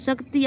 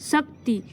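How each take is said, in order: First: The first syllable is said plainly, without a jolt. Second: The first syllable is said with a jolt. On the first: The speaker calls it wrong. "આવી રીતે તો આપણે બોલતા નથી" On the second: The speaker calls it right. "થડકાર સ ઉપર ઉત્પન્ન થાય છે"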